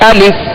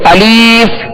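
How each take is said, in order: First: The second syllable has a short i vowel. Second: The second syllable has a long ee vowel. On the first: The speaker calls it right. "दुरुस्त तरीका ये है अलिफ" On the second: The speaker calls it wrong. "ये तकरीबन तीन तरह की खामियां होती हैं"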